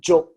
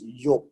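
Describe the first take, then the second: First: The name starts with a J sound. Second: The name starts with a Y sound. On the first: This is the English form of the name. "the Y became a J, so it became Job" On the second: This is the original Hebrew form of the name. "but it's Yob"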